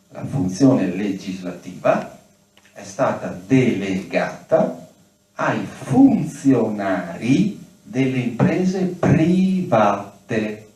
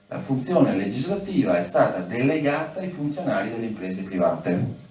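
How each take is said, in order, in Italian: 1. La frase è pronunciata lentamente e con attenzione. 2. La frase è pronunciata a velocità normale.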